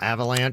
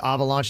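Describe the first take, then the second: First: The word is pronounced in a plain way. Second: The word is pronounced in a fancy way. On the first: The speaker sounds ordinary. "not Avalanche" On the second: The speaker sounds sophisticated. "If you're fancy, you say Avalanche"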